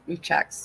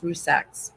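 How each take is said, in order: First: The middle consonant is a ch sound. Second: The middle consonant is a z sound. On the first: The speaker calls it wrong. "I always try to put the checks in there" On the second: The speaker calls it right. "I know it's more of a Z Rusaks"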